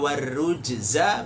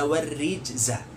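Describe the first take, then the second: First: The vowel after the r is u. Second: The vowel after the r is i. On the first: It refers to idols, means of polytheism. "Bisa dibaca dhammah di huruf ra" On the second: It refers to filth or sin. "bisa dibaca kasrah di huruf ra-nya"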